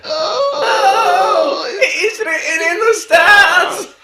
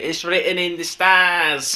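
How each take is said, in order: First: Ecstatic commentator shout, much higher, louder and slow; Gary Neville shout. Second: A mild, slowed, higher imitation of a football commentator; drawn-out commentator line, half-hearted; Gary Neville commentary. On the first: Retold or imitated. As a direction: scream it like a goal call in a semi-final. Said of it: "Yeah, like that". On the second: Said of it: "as Gary Neville would say".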